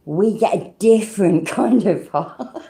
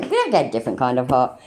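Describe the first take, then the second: First: Slow, drawn-out jokey insistence with a laugh; mock-earnest Brit defending the complaint. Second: Said in the usual way. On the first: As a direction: insist slowly, laughing at your own claim. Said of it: "And we're like".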